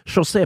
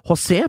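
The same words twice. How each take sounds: First: The name is said with a Portuguese pronunciation. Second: The name is said with a Spanish pronunciation. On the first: "José på portugisisk" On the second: "José på spansk"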